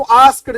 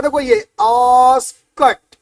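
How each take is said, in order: First: "आस्क्ड" said with a voiced d at the end, as students wrongly do; wrong pronunciation. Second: "आस्क्ड" drawn out slowly with a clean final t; correct pronunciation, slow. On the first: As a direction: mimic the student's "askd". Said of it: "आस्क्ड बोलता है इसको". (छात्रों वाला गलत उच्चारण "आस्क्ड", अंत में ड) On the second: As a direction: spell out "आस्क्ड" slowly as "askt". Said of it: "जबकि ये बोलता है". (धीरे-धीरे सही उच्चारण "आस्क्ड", अंत में ट) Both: Shown as a demonstration.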